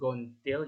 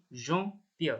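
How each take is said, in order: First: The word starts with a hard G sound. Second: The word starts with a soft J sound. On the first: The speaker calls it wrong. "bukan gontil" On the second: The speaker calls it right. "tapi jontil ya, karena ketemu huruf E"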